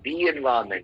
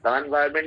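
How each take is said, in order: First: The word 'the' is said as 'thee'. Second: The word 'the' is said as 'thuh'. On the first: The speaker calls it right. "ये correct था" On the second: The speaker calls it wrong. "द environment नहीं"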